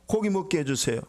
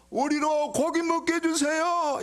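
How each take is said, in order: First: Said in the usual way. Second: High, slow tearful wail; mock crying. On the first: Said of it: "이런 게 아니고 우는 목소리로". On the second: Shown as a demonstration. Israelites beg Moses for meat, high mock crying. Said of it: "울면서".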